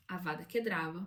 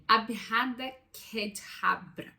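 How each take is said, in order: First: Said in the usual way. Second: Abhada Kedavra sounded out slowly, piece by piece; slow, careful attempt at Abhada Kedavra in Aramaic; attempted Aramaic pronunciation. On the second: Shown as a demonstration. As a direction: read Abhada Kedavra haltingly, like an unfamiliar foreign phrase. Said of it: "eu provavelmente vou pronunciar errado".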